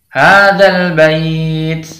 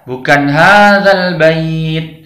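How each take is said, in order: First: The final 't' ends with a puff of breath. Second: The final 't' ends voiced, without breath. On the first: The speaker calls it right. "harus dengan hembusan angin" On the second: The speaker calls it wrong. "ada yang membaca dengan jahar"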